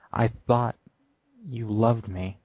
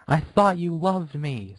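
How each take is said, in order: First: A hint of quiet heartbreak; quiet hurt. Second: High, slow wail of hurt; high slow tearful wail. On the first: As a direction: say it straight into her eyes. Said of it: "looked up slowly". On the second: Acted. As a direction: cry it out, heartbroken. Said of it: "Scootaloo wailed".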